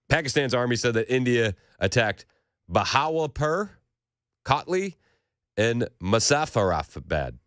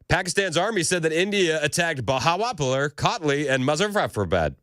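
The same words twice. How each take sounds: First: It is said slowly and hesitantly. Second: It is said quickly and confidently.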